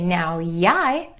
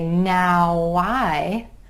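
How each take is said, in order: First: A y sound glides between the words. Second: A w sound glides between the words. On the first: The speaker calls it wrong. "that just feels weird and it sounds funny" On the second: The speaker calls it right. "It makes sense to say now I"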